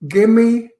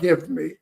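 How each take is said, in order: First: The two words are run together as one. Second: The two words are said fully and separately. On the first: The speaker calls it right. "it's gimme" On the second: The speaker calls it wrong. "not give me"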